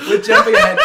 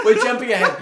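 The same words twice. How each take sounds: First: Much higher and louder, half shouting; high loud laughing protest. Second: Said in the usual way. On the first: Real, not acted. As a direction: yell it to rein the chat in.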